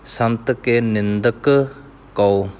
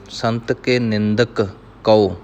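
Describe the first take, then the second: First: A short pause separates the two k sounds. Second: A short pause separates the two k sounds.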